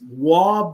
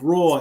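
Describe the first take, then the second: First: The name is said like 'wah' without r. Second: The name is said like 'roy' with r. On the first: "I did not know about Canadian pronunciations" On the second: "but it's spelled Roy"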